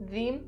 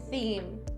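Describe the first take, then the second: First: The first sound is a voiced th. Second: The first sound is a voiceless th. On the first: The speaker calls it wrong. "change the voiceless th sound to the voiced th sound ... That's not correct" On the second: The speaker calls it right. "don't change the voiceless th sound"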